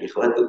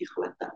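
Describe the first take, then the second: First: The word ends with a 'u' vowel. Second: The word ends with an 'a' vowel. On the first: The speaker calls it wrong. "Yang lebih tepat bukan ikhwatu" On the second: The speaker calls it right. "tapi ikhwata"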